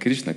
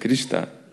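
First: The word ends with a 'shna' sound. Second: The word ends with a 'shta' sound. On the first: "Не Кришна" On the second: "Где-то, говорит, Кришта"

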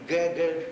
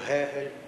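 First: Both G sounds follow the Russian pattern. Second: Both G sounds follow the Ukrainian pattern. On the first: "неправильно по-російському" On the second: "неправильно по-українському"

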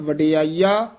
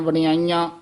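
First: The final vowel is plain, not nasalized. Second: The final vowel is nasalized. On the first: The speaker calls it right. "ਜਿਸ ਤਰ੍ਹਾਂ ਉਚਾਰਨ ਕੀਤਾ ਗਿਆ ਹੈ" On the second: The speaker calls it wrong. "ਬਿੰਦੀਆਂ ਲਾ ਕੇ ਵਡਿਆਈਆਂ ਵਡਿਆਈਆਂ ਇਸ ਤਰ੍ਹਾਂ ਨਹੀਂ ਬੋਲਣਾ ਹੈ"

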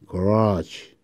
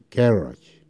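First: The stress is on the second syllable. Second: The stress is on the first syllable. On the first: This is the American pronunciation. "미국 사람들은 garage 두 번째" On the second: This is the British pronunciation. "영국은 garage 하죠"

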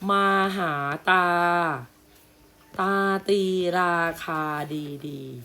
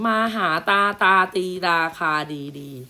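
First: There is a short pause after the first phrase. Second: It is read straight through with no pause. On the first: Two separate phrases are read. The speaker calls it right. "มันอ่านตามคุณครูตามนี้นะ" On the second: It sounds like one run of repeated words. The speaker calls it wrong. "ถ้าเว้นวรรคไม่ถูกจะอ่านอย่างนี้"

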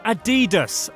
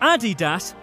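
First: The name is said the American way. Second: The name is said the German way. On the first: The speaker calls it wrong. "not Adidas, America, okay?" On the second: The speaker calls it right. "which is why the company is called Adidas"

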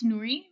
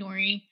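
First: The name is said with its original Arabic pronunciation. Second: The name is said with an American pronunciation. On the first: This is the name's real pronunciation. The speaker calls it right. "It's Noori" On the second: This is how people usually say the name. The speaker calls it wrong. "I always let people just call me Noori"

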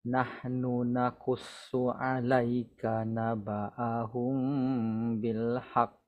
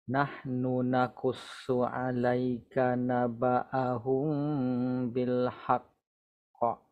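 No difference in how they are said.

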